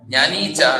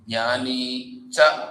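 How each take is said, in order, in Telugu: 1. పదాలు ఆగకుండా కలిసిపోతాయి. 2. రెండు పదాల మధ్య చిన్న విరామం ఉంటుంది. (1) "జ్ఞానీచ జ్ఞానీచ అంటది. నీచ అని వస్తుంది" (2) "అక్కడ గ్యాప్ ఇవ్వాలి"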